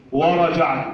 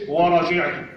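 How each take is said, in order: First: ورجعت as "wa-raja't"; fatha on ج. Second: ورجعت as "wa-raji't"; wrong kasra on ج. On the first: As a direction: open the vowel after ج in ورجعت. (ورجعت بفتح الجيم) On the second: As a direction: put an i after ج in ورجعت. (ورجعت بكسر الجيم خطأً) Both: Shown as a demonstration. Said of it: "مش ورجعت".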